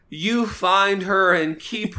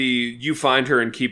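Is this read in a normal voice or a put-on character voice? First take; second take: character voice; normal. First: It is read in a put-on comic character voice. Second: It is read in the speaker's normal voice.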